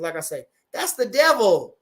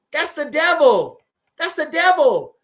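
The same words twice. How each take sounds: First: Said in the usual way. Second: Emphatic loud. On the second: Real, not acted. Repeats phrase plain, then punched.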